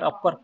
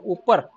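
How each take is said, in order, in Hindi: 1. पहला स्वर एक छोटी 'uh' ध्वनि है। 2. पहला स्वर एक लंबी 'oo' ध्वनि है। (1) "हमको सिखाया गया कि इसको अपर पढ़िए" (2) "दिखते तो है यू डब ऊपर"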